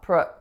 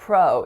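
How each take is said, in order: First: The syllable has a reduced schwa vowel. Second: The syllable has a full vowel. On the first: The speaker calls it right. "the first syllable has a schwa" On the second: The speaker calls it wrong. "the first syllable is not pro"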